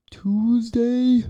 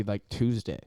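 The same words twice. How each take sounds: First: Squeaky high "Tuesday"; high comic voice. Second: Said in the usual way. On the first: Acted. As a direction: pitch "Tuesday" way up, joking. Sudden high comic repeat.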